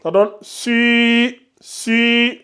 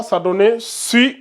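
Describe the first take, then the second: First: Si with the i held long; si drawn out to two counts; long i vowel. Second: Said in the usual way. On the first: Shown as a demonstration. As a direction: stretch the i in si slowly. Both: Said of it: "vous allongez de deux secondes".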